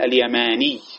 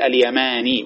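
First: The final ya is doubled and stressed. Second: The final ya is short and single. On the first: The speaker calls it wrong. "هذا غلط لأنه جمع بين العوض والمعوض" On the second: The speaker calls it right. "وتخفف الياء الثانية"

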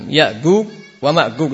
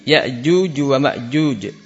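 First: The letter jim is said as a hard g. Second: The letter jim is said as a j. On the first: It follows a colloquial dialect pronunciation. The speaker calls it wrong. "Tapi baca jim dengan gim" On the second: It follows standard Quranic pronunciation. The speaker calls it right. "Ya benar adalah ja ji"

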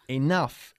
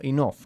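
First: The word ends with an f sound. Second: The word ends with a g-like sound. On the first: The speaker calls it right. "Imagina que es una F" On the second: The speaker calls it wrong. "no enough, como dice mucha gente aquí"

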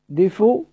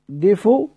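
First: The word ends with a faint, partial u vowel. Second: The word ends with a faint, partial u vowel.

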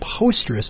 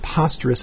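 First: The first syllable sounds like 'post'. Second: The first syllable sounds like 'poss'. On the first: The name comes from posting things. "it should be posterous because you're posting things" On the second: The name echoes the word preposterous. "they pronounced it posterous as in preposterous"

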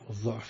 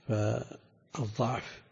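First: The first vowel is a rounded 'u'. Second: The first vowel is an open 'a'. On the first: Weakness of judgment. "الضم" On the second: Weakness of the body. "الفتح"

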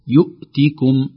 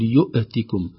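First: The glottal stop is held firmly without a bounce. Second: The glottal stop is released with an echoing bounce. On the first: The speaker calls it right. "تظهر شدتها بهكذا بانحباس الصوت" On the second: The speaker calls it wrong. "نحذر من قلقلتها"

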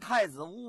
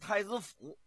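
First: The last syllable is pronounced wu. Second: The last syllable is pronounced fu. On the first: This is the standard Mandarin reading. "但是你要说太子坞啊，也不是不行" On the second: This is how local people say it. "他们一般的当地啊，都叫太子府"

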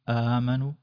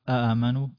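The two takes are said the same way.

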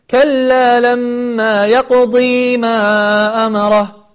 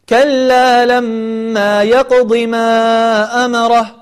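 First: The vowel after the ḍād is drawn out long. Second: The vowel after the ḍād is short. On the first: The speaker calls it wrong. "ولا تقول" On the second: The speaker calls it right. "فأنت حين الوصل تقول"

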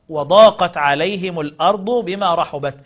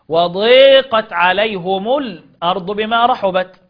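First: The long vowel is an open 'a'. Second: The long vowel is tilted toward 'e'.

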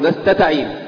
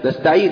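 First: The t sound is repeated in a stutter. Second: The t sound is said once, smoothly.

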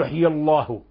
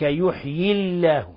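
First: The l in Allah is heavy and thick. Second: The l in Allah is light and thin. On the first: The speaker calls it wrong. "ما يجوز نقول" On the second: The speaker calls it right. "فلهذا رقق لفظ الجلالة"

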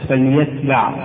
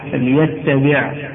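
First: The t sound is short and single. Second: The t sound is held and doubled. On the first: The speaker calls it right. "والصواب المعروف تخفيفها" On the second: The speaker calls it wrong. "تاءه مشددة"

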